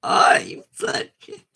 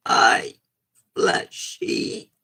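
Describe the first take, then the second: First: Breathy high squeak that cracks; a cracked, half-whispered high attempt; failed voice try. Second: Low rough growl of a greeting; low voice try. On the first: Streamer fumbling a character voice, cracked high squeak. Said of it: "I can't do it like that". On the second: Streamer trying a low gruff take on the character. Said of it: "Can't do that". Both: Shown as a demonstration.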